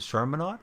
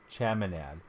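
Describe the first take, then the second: First: The first syllable has an R sound. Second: The first syllable has no R sound. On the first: The speaker calls it wrong. "I don't think I'm pronouncing that right" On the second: The speaker calls it right. "No R"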